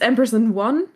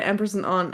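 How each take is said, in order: First: The last word is said like 'one'. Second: The last word is said like 'on'. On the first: This is the correct name. The speaker calls it right. "it's Empress and One" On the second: This is how the speakers habitually say it. The speaker calls it wrong. "but we always say Empress and On"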